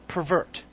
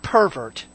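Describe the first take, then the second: First: The stress is on the second syllable. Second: The stress is on the first syllable. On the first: It means to turn something from its proper purpose. The speaker calls it right. "You got to put the emphasis on the right syllable" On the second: It names a person with a dirty, sexual sense. The speaker calls it wrong. "Not pervert. Get your minds out of the gutter"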